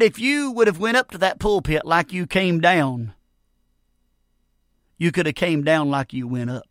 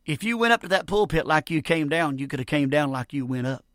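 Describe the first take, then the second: First: Lightly voiced old preacher, measured with a long pause; a hint of an old preacher's deliberate counsel. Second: Said in the usual way. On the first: Old preacher advising the failed young preacher, lightly voiced and deliberate. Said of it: "one of the old preachers". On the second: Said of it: "Did you get that?".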